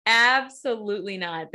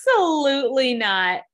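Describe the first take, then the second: First: Said in the usual way. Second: Louder, higher outraged "Absolutely not"; emphatic refusal. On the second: Real, not acted. To the co-host about the memo, an outraged loud no. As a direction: shoot the idea down hard.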